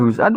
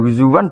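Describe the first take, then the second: First: The middle has a glottal stop, no w sound. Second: The middle has a w-like sound, no glottal stop.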